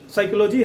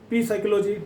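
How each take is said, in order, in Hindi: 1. यह शब्द बिना p की आवाज़ के शुरू होता है। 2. यह शब्द बोले जाने वाले p से शुरू होता है। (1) "साइकोलॉजी है ना"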